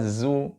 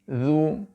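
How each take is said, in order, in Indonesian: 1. Konsonannya bunyi 'z' biasa yang berdengung. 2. Ujung lidah menyentuh gigi, bunyi 'th'. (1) "Jangan sampai terucap seperti suara zu" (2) "ujung lidah kita bertemu dengan ujung gigi bagian depan"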